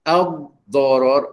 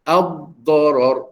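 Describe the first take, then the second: Both takes have the same delivery.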